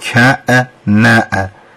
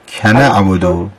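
First: A glottal catch separates the k from the next vowel. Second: The k links smoothly into the next vowel. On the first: The speaker calls it wrong. "بعد از کاف شما یه دونه همزه هم دارید میگید" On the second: The speaker calls it right. "یا کنه عبدو بگید"

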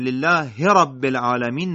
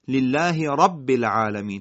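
First: The last letter is run into the next word. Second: The next word's first letter is clearly articulated. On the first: The speaker calls it wrong. "قاری باید مراقب باشه لله رب العالمین نگه" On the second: The speaker calls it right. "تأکید روی راء رب باشه"

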